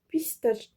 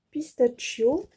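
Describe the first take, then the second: First: Said in the usual way. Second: "pistachio" said the English way, not French "pistache"; English word. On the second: Shown as a demonstration. Showing a fabric to viewers, "pistachio" in English. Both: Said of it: "Pardon pour mon anglais".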